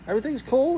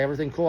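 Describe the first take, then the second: First: High, soft questioning echo; incredulous echo. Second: Said in the usual way. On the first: Retold or imitated. Driver repeats cop's question back, incredulous. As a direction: throw the question back in disbelief, pitched up.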